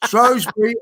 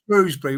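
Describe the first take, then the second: First: "Shrewsbury" said as SHROHZ-bree; Shrows-bury pronunciation. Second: "Shrewsbury" said as SHROOZ-bree; Shrews-bury pronunciation. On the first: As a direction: say "Shrewsbury" with a long o, rhyming with rows. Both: Shown as a demonstration. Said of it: "You can say that either".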